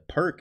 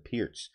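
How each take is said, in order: First: It sounds like the English word perk. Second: It does not sound like the word perk. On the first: The speaker calls it wrong. "it's a mispronunciation when you say perk" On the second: The speaker calls it right. "The perk is actually the Pirc"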